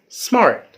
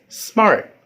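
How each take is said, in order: The two takes are said the same way.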